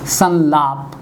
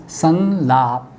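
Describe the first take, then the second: First: Said in the usual way. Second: संलाप said very slowly, anusvara as a clear न: सन्-लाप; slow pronunciation demo. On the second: Shown as a demonstration. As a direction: spell out संलाप slowly as सन्लाप. (संलाप को धीरे-धीरे सन्लाप बोलना) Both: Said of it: "ये भी यही है".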